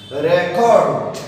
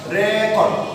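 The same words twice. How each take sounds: First: The stress is on the second syllable. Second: The stress is on the first syllable.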